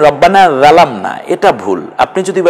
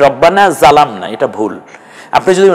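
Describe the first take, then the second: Both takes have the same delivery.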